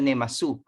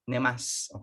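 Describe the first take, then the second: First: The final u is clearly sounded. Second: The final u is silent. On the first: The speaker calls it wrong. "hindi siya nemasu" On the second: The speaker calls it right. "there is a silent u"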